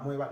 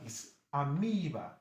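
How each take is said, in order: First: The E vowel is said short. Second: The E vowel is said long. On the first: The speaker calls it wrong. "your secondary school you see pronounce it amoeba" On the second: The speaker calls it right. "No, no, it's amoeba"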